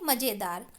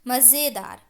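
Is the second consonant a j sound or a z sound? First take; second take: j sound; z sound. First: The second consonant is a j sound. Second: The second consonant is a z sound. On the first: The speaker calls it wrong. "बिना नुक्ता का पढ़ देंगे" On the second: The speaker calls it right. "क्या होता है"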